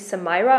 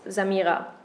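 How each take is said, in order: First: The name is said with an English pronunciation. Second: The name is said with a German pronunciation. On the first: "when you're pronouncing it English, it would be Samira" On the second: "in German, it's Samira"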